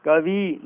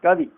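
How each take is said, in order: First: कवि with a drawn final "ee"; wrong long ending. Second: कवि with a short final "i"; correct short ending. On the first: Teacher rejecting the error, कवि with long final vowel. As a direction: say कवि as "kavee". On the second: Teacher giving the correction, कवि with short final vowel. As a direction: end कवि quickly on "i". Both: Shown as a demonstration. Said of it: "कवि नहीं".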